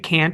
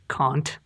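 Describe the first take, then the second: First: It is said with an American-sounding vowel. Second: It is said with a typical British vowel. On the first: This is how the actress says it. The speaker calls it wrong. "she says like it can't" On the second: This is the usual English pronunciation. The speaker calls it right. "instead of can't"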